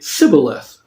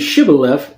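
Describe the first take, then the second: First: The word begins with an s sound. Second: The word begins with an sh sound. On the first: The speaker gives away that they are from that group. "the people of Ephraim could not pronounce the S H sound" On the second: The speaker is not from the group that cannot say sh. "instead of saying shibboleth"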